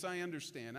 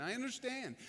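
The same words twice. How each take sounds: First: Low, soft I understand with understand falling gently; Jesus calmly soothing Nicodemus, low and gentle; low reassurance. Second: Brighter repeat. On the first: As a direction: settle him with a quiet, lowered I understand. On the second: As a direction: raise the second I understand, kindly insisting. Repeated reassurance, higher. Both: Retold or imitated.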